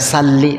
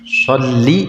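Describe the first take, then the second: First: It begins with a plain, light s sound. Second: It begins with a heavy, emphatic s sound. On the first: The phrase loses its meaning. The speaker calls it wrong. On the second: It means to send blessings. The speaker calls it right.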